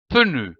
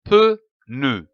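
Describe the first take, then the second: First: Said in the usual way. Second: PEU, then NE, with a pause between; syllable by syllable. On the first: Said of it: "donne le mot". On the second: Shown as a demonstration. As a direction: break pneu into two detached syllables. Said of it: "L'association de ces deux syllabes donne le mot".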